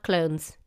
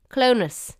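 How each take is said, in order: First: "clones" as one syllable, like the English word; spelling pronunciation. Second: "Clonus" in two syllables, CLO-niss; local pronunciation. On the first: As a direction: rhyme "clones" with bones. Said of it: "No, not". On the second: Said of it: "not clones". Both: Shown as a demonstration.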